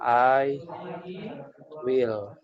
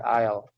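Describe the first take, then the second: First: Both words are said fully and separately. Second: The two words are merged into one syllable.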